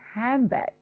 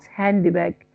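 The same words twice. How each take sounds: First: The d is dropped and n becomes m. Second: The n and d are both said clearly. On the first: The speaker calls it right. "Then convert N sound in hand into M. It will be handbag" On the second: The speaker calls it wrong. "not handbag"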